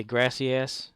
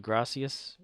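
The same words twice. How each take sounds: First: "grassy ass" said as two English words, gras-see ass; mispronounced gracias. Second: "gracias" said the Spanish way, grah-see-as; proper gracias. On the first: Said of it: "exaggerating it because he's Southern". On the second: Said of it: "instead of". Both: Retold or imitated.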